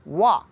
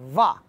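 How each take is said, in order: First: The first sound uses rounded lips, teeth not touching. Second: The first sound uses upper teeth on lower lip. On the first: The speaker calls it right. "वाव को हमेशा गोल होंठ करके पढ़ना है" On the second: The speaker calls it wrong. "ऊपर के जो दांत हैं उनको निचले ... होंठ ... से लगा के वाह पढ़ते हैं, तो ये गलत है"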